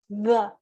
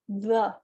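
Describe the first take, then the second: No difference in how they are said.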